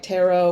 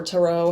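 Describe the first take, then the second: First: First syllable of "tarot" rhymes with air; "tarot" pronounced TAIR-oh. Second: Reduced first syllable in "tarot", like tuh-ROH; "tarot" pronounced tuh-ROH. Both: Shown as a demonstration. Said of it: "however you wanna say it".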